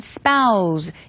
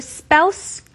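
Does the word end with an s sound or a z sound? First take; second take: z sound; s sound. First: The word ends with a buzzing z sound. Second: The word ends with a hissing s sound. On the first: "약간의 z 발음이 나죠" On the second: "스 발음으로 spouse 하셔도 좋고요"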